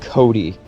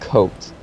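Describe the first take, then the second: First: The name is said with two syllables. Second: The name is said with one syllable. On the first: The speaker calls it right. "John's last name is pronounced Cody" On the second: The speaker calls it wrong. "not Coat"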